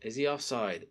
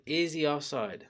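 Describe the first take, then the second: First: Said in the usual way. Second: Slower, with stress on "Is"; insistent repeat. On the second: Real, not acted. Fan questioning the call, slow emphatic "Is". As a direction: lean on "Is", drawing it out. Asks again, more insistently.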